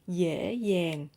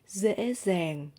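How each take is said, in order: First: Southern accent, the initial d sounds like y. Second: Northern accent, the initial d sounds like z. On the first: "I'm speaking in Southern accent" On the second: "in Northern accent"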